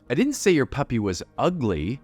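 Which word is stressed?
ugly. The word 'ugly' carries the main stress. The puppy has some other flaw instead. "the message there is maybe it's not that smart, but it's cute"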